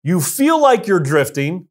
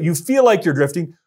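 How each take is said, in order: First: Said in the usual way. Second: "feel" leaned on and held; stress on feel. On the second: Shown as a demonstration. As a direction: lean into "feel", lingering on its end. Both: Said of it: "emphasis on the feel".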